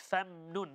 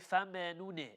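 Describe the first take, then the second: First: The mim is held with the lips closed. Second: The mim is released with a bouncing vowel. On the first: The speaker calls it right. "It's famnun" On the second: The speaker calls it wrong. "the meme is not qalqala at all ... we cannot say"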